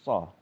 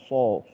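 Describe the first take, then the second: First: The syllable is said without rounding the lips. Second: The syllable is said with rounded, pushed-out lips. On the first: The speaker calls it right. "Tapi so" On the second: The speaker calls it wrong. "Enggak, bukan, bukan, bukan seperti itu"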